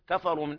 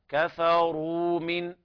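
First: The r is light and the w is short. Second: The r is heavy and the w is lengthened. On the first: The speaker calls it wrong. "لا نقول كفروا من أهل الكتاب كما يقرأ العوام" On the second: The speaker calls it right. "تفخيم الراء من الدرجة الثانية بهذه الطريقة ومد الواو مدا طبيعيا بمقدار حركتين"

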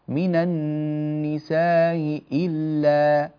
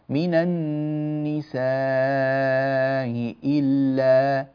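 First: The vowel before the glottal stop is kept short. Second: The vowel before the glottal stop is held long.

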